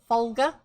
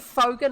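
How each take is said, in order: First: The name is said with an L sound. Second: The name is said without an L sound. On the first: The speaker calls it wrong. "not Fol- Folger. There's no L in his name" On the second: The speaker calls it right. "It's actually Foger"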